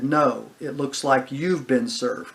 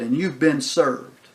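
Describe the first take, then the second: First: Slow, with stress on YOU'VE; turning it back. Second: Slow, with weight on BEEN SERVED; official pronouncement. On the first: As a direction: throw it back, leaning on "you've". Friend turns the phrase back. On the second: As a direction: pronounce "you've been served" slowly, letting it fall. Officer formally serves the friend. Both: Retold or imitated.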